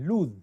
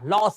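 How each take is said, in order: First: The word ends with a z sound. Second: The word ends with an s sound. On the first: The speaker calls it right. "जो उसका उच्चारण होता है वो ज में होता है" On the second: The speaker calls it wrong. "लॉस नहीं"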